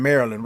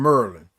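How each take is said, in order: First: Said in the usual way. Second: "Maryland" squeezed into two syllables, like "Merlin"; "Maryland" with the middle vowel dropped, MUR-lin; local pronunciation. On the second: Shown as a demonstration. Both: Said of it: "that's how they say Maryland".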